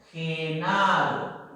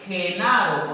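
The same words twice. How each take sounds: First: Genaro drawn out very slowly, ending falling; slow model word; slow careful demo. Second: Said in the usual way. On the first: Shown as a demonstration.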